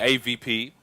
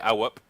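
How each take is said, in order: First: Spelled out as letters, with V in the middle. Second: Said as 'A' followed by the word 'whoop'. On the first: This is how Nordic players say it. "Nordics say" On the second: This is how French players say it. "The French say"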